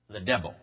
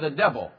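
First: It is said in an imitated character voice. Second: It is said in the speaker's normal voice.

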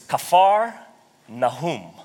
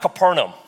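First: The name is said in its Hebrew form. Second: The name is said in an anglicized form. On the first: The speaker calls it right. "It's Kfar Nahum" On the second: The speaker calls it wrong. "We butcher a lot of the Hebrew words"

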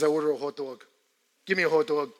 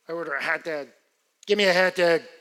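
First: It is said in a New York accent. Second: It is said in a Chicago accent.

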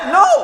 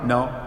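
First: It is said forcefully, with strong emphasis. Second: It is said mildly, with little force.

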